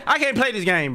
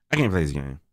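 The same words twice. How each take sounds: First: Yelling the complaint; loud yelled complaint. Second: Said in the usual way. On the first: Real, not acted. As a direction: shout it, fed up. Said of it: "I'm screaming at everything". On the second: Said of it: "I'm serious".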